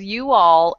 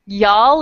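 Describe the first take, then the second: First: "you all" as two separate words; full uncontracted form. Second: "y'all" as one run-together syllable; you and all merged into "y'all"; contracted form. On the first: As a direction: say "you" and "all" slowly and apart. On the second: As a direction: say "y'all" as a single word. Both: Shown as a demonstration. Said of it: "y'all is you all".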